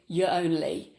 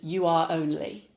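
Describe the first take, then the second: First: The verb is contracted into the pronoun. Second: The verb is said in full, separately. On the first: The speaker calls it right. "sounds much more natural" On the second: The speaker calls it wrong. "than you are only"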